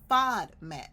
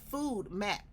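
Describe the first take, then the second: First: The first syllable has a short 'fod' sound. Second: The first syllable sounds like the word 'food'. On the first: The speaker calls it right. "it's a FODMAP" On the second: The speaker calls it wrong. "they say it back to me as food map diet. It's not a food map"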